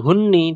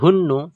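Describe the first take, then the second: First: The word ends in an i vowel. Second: The word ends in a u vowel. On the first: "ini tidak dibaca hunni" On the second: "tidak dibaca hunnu"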